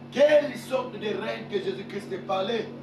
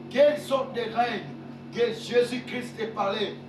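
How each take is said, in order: No difference in how they are said.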